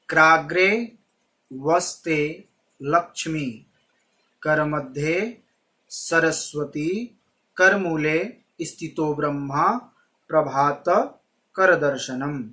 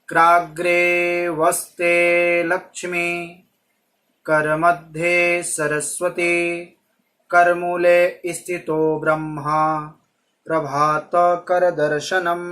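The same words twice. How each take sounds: First: The verse has short breaks between separate words. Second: The verse flows on without breaks between words.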